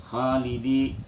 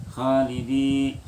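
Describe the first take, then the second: No difference in how they are said.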